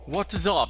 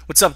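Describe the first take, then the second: First: It is said in a put-on British accent. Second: It is said in his normal American accent.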